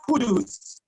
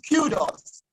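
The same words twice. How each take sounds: First: Kudos said KOO-dooz, the error; wrong pronunciation. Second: Kudos said KYOO-dos, the right form; correct pronunciation. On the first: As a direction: quote the faulty kudos for contrast. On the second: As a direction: model kudos with the y sound. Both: Shown as a demonstration. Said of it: "not kudos".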